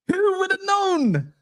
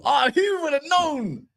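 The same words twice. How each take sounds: First: Who would have known, much higher and slow; sarcastic sing-song; mock surprise. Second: Said in the usual way. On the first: Shown as a demonstration. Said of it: "mock surprise, higher". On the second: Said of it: "mock surprise".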